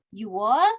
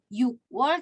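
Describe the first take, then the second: First: No k sound is heard before 'wol'. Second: A k sound is heard before 'wol'. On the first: The speaker calls it right. "tapi you wall" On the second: The speaker calls it wrong. "bukan you wall"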